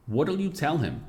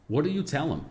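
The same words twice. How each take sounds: The two takes are said the same way.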